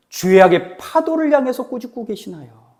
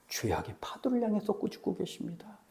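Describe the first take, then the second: First: 죄악의 파도를 pushed out louder, ending as a question; rhetorical question. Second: Much softer, falling statement; hushed answer. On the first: Preacher quizzing the congregation on whom Jesus rebukes, emphatic questioning. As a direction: press hard on 파도를, then leave the question open. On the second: Preacher answering his own question for the congregation, hushed and certain. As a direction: drop the volume right down and state it as settled. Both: Real, not acted.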